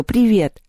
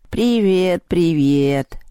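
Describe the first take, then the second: First: Higher-pitched, lively hello; friendly greeting. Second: Drawn-out, musing cat voice; reply thoughtfully, stretching each hello; pensive cat. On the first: Lyolya corrects herself and greets Vaska, friendly greeting. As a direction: greet the cat brightly. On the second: The cat answers Lyolya's greeting, pensive cat. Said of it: "задумчиво ответил кот". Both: A narrator's reading.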